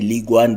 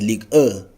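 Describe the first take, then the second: First: The name is said with an English pronunciation. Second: The name is said with a French pronunciation. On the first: "English speaking people, we say Ligue one" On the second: "the French pronounce it as Ligue one"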